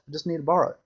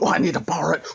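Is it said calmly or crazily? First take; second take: calmly; crazily. First: It is said calmly, in a normal voice. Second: It is said in a crazy, agitated way.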